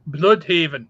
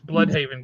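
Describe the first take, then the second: First: The name is said with a German-sounding accent. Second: The name is said with a plain English sound. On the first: The speaker calls it wrong. "because you have to say it German" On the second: The speaker calls it right. "no, no, no, it's Bloodhaven, guys"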